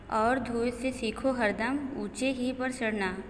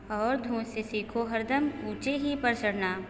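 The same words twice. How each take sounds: The two takes are said the same way.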